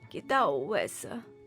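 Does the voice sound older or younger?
older. The voice sounds older and less childlike. The speaker calls it wrong. "Talvez não. Mia me parece ser um pouco mais"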